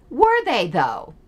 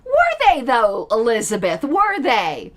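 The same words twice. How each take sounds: First: Pointedly doubtful question; sceptical challenge. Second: Pointed sceptical challenge. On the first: Critic questioning Elizabeth's claim, sceptical. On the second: Critic pressing Elizabeth on her claim, pointedly sceptical. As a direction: press the doubt harder, teasingly. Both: Acted.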